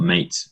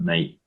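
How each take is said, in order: First: The t is clearly pronounced. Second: The t is dropped, local style.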